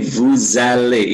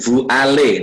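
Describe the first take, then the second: First: A z sound links the two words together. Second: The words are said apart with no z sound. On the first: The speaker calls it right. "tapi Bu Zale. Ingat, bahasa Prancis ada liaison yang merangkaikan" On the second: The speaker calls it wrong. "Tidak Bu Ale"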